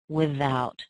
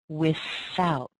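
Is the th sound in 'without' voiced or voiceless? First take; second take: voiced; voiceless. First: The th in 'without' is voiced. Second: The th in 'without' is voiceless. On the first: "people using that voiced sound" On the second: "I tend to use the unvoiced th"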